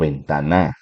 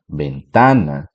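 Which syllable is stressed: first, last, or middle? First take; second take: last; middle. First: The stress is on the last syllable. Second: The stress is on the middle syllable.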